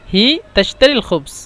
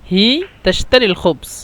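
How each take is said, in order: The two takes are said the same way.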